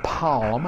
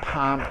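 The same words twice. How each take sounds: First: The L sound is clearly pronounced. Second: The L sound is left silent. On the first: "they don't say L's in the middle of a word. So they don't say palm" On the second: "They say palm"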